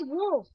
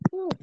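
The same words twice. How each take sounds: First: The word begins with a w sound. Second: The word begins with an h sound. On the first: The speaker calls it wrong. "We do not say who" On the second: The speaker calls it right. "but we say who"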